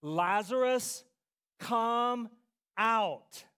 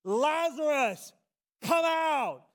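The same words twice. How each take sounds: First: Slow, measured loud command; firm, spaced-out summons. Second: Full-voiced high shout, drawn out; megaphone-loud commanding yell; crying out loudly. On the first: Acted. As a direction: call each word out separately, louder. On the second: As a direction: bellow the summons with all your might. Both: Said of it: "he cried out in a loud voice".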